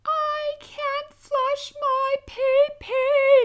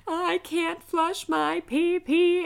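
First: Very high, loud, drawn-out wail; screaming toddler. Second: High, loud, slow whiny wail; screaming toddler. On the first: Mom imitating her son's slow, very high, loud tantrum wail. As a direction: wail it like a toddler losing his mind. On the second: Mom imitating her toddler screaming through the house, high and slow. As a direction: whine it out like a furious little boy. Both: Retold or imitated. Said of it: "running around the house screaming".

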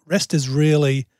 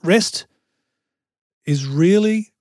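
First: Said in the usual way. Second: Rest lifted high, then a long pause; stress on rest. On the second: Shown as a demonstration. Speaker restating what rest means, stress and pause on rest. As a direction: set rest apart with a rising pitch before carrying on. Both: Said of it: "I'll say it like this".

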